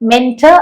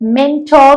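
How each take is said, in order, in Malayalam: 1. അവസാന അക്ഷരത്തിൽ ദുർബലമായ, ചുരുങ്ങിയ സ്വരമുണ്ട്. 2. അവസാന അക്ഷരത്തിൽ പൂർണ്ണമായ 'or' സ്വരമുണ്ട്. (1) "മെന്റർ അല്ല" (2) "മെന്റോർ എന്നാണ് ഇത് പ്രൊനൗൺസ് ചെയ്യേണ്ടത്"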